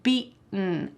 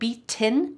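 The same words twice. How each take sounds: First: The T is swallowed in the throat. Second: The T is pronounced as a clear sound. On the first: The speaker calls it right. "This is called a glottal T" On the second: The speaker calls it wrong. "I'm not saying beaten with a t, t sound"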